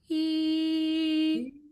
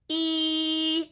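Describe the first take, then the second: First: The vowel is made with pinched, closed lip corners. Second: The vowel is made with spread, wide lip corners. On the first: The speaker calls it right. "It's more E" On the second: The speaker calls it wrong. "instead of being like E"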